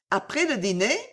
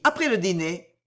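First: "Après le dîner" as a question, rising at the end; searching echo. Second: Said in the usual way. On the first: A narrator's reading. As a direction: repeat it with a rise, as if trying to remember. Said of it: "répéta Bijou qui sembla chercher". (répétition songeuse, montante en fin de phrase) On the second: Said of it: "répéta Bijou".

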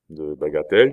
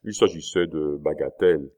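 First: Louder BAGATELLES with a rising question tune; "bagatelles" thrown back, louder and rising; questioning echo. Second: BAGATELLES dropped casually with a falling end; offhand, falling tune on "bagatelles"; feigned indifference. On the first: Duke questions the dismissive word. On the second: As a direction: say "bagatelles" as a dismissive statement, voice falling. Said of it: "d'un air qu'il tâcha de rendre indifférent". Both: A narrator's reading.

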